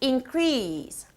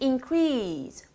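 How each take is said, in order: Both takes have the same delivery.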